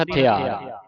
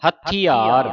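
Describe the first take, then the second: First: ਹਥਿਆਰ with a loose, lightly held ਥ; common misreading. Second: ਹਥਿਆਰ with a tight, doubled ਥ; tightened consonant. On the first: Teacher quoting how congregations read it, loose ਥ in ਹਥਿਆਰ. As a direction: read ਹਥਿਆਰ without doubling or pressing the ਥ. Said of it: "ਕਈ ਸੰਗਤਾਂ ਪੜ੍ਹਦੀਆਂ". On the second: Teacher showing students the correct reading, ਥ held tight in ਹਥਿਆਰ. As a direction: press firmly on the ਥ in ਹਥਿਆਰ. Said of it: "ਥੱਥੇ ਨੂੰ ਥੋੜ੍ਹਾ ਕੱਸ ਕੇ ਬੋਲਣਾ ਹੈ". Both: Shown as a demonstration.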